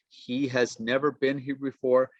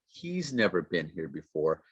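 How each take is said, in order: First: The word 'has' is said in full. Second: The word 'has' shrinks to an s sound.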